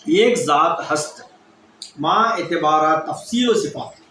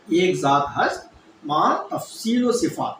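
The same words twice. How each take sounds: First: Each word of the definition laid out slowly and deliberately; slow recitation. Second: Said in the usual way. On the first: Shown as a demonstration. Teacher giving students the definition of واحدیت, slow and deliberate. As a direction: recite it slowly, as a formula to learn by heart. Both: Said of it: "واحدیت کی تعریف کیا ہے؟".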